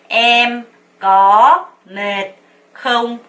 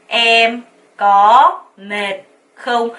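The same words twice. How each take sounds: No difference in how they are said.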